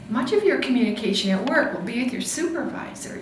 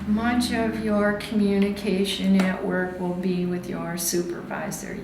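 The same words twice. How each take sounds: First: It is read lively, with varied conversational pitch. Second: It is read flat, with little pitch variation. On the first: The speaker calls it right. "try to make this lively" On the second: The speaker calls it wrong. "so many of my students read like this"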